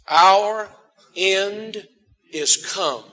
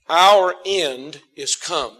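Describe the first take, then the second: First: It is said slowly and drawn out. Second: It is said at a normal pace.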